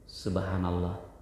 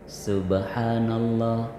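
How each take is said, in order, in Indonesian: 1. Bibir tidak pernah menutup, jadi b hilang. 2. Bibir menutup untuk bunyi b yang jelas. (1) "Coba kalau nggak ketemu" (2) "wajib bertemu dua bibir"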